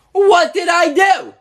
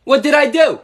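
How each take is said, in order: First: Higher, slower, indignant yell; louder protest. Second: Said in the usual way. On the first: Acted. Father protesting his ban to Dixie, higher indignant yell. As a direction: demand it again, outraged.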